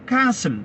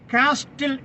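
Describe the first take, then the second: First: The t in the middle is silent. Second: The t in the middle is sounded. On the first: "വായിക്കുന്നത് കാസിൽ" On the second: "കാസ്റ്റിൽ എന്ന് എഴുതുന്നു"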